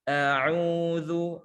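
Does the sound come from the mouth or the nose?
mouth. The sound comes out through the mouth. The speaker calls it right. "Yang benar adalah murni dari mulut"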